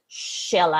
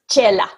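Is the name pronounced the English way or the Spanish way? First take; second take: English; Spanish. First: The name is pronounced with English sounds. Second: The name is pronounced with Spanish sounds. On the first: "In English" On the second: "In Spanish"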